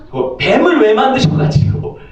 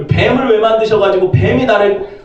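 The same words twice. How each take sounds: First: Higher pitched whiny complaint, stress on 뱀을; blaming complaint. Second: Higher whine, 뱀을 stressed, falling; blaming complaint. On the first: Adam complaining to God about the snake, higher whine. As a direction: whine it like a petulant blamer. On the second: Adam blaming God again, higher whiny gripe. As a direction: repeat the gripe, just as petulant. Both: Acted.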